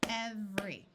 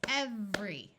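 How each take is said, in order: No difference in how they are said.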